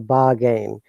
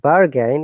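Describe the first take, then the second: First: The R sound after the first vowel is silent. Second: The R sound after the first vowel is pronounced. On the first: "we say bargain. R is not there" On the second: "whatever she said"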